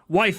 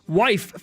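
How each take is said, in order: First: The word is said quickly and not clearly. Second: The word is said slowly and carefully enunciated. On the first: The speaker calls it wrong. "I should have slowed down a little bit" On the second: The speaker calls it right. "enunciate that first word on the second line a little bit clearer"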